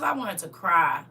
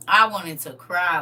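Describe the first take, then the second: First: Said in the usual way. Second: "I wanted to cry." repeated louder, stressing I; emphatic repeat. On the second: Real, not acted. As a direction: hammer the repeat home.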